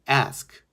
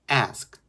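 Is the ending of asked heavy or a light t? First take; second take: light t; light t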